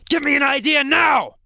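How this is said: It is said in a harsh tone.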